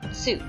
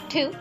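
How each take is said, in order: First: The word begins with a ts sound. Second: The word begins with a plain t sound. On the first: The speaker calls it right. "it is actually pronounced tsu" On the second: The speaker calls it wrong. "You would think that it would be pronounced tu"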